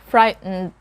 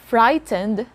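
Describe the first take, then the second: First: No vowel is heard between T and N. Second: A vowel is heard between T and N. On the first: The speaker calls it right. "a silent letter E" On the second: The speaker calls it wrong. "So it's not frightened"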